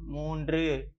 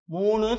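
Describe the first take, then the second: First: மூன்று with a clear "ndru" ending; correct formal form. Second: மூணு as moo-nu, with no "dr" sound; colloquial wrong form. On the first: Teacher modelling the number for children, careful formal pronunciation. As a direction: say மூன்று as moon-dru, in formal Tamil. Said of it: "மூன்றுன்னு சொல்லணும்". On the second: Teacher showing children the form to avoid, colloquial pronunciation. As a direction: say மூணு in everyday colloquial Tamil. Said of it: "மூணு சொல்லக்கூடாது". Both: Shown as a demonstration.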